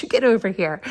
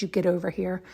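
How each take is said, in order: First: Louder, commanding call; stern callout to a distracted dog; firm call to the dog. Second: Said in the usual way. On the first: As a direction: order the dog back to you. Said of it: "so of course I yelled at him". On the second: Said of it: "he saw me and I said".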